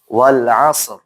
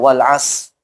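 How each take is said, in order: First: The final consonant is clearly pronounced. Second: The final consonant is dropped. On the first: The speaker calls it right. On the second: The speaker calls it wrong.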